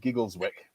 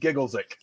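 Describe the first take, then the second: First: The w sound in the middle is pronounced. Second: The w sound in the middle is dropped.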